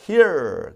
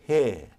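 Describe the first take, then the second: First: The final R sound is clearly pronounced. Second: The final R sound is dropped entirely. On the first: "미국은 버터 R" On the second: "R 사운드를 죽여"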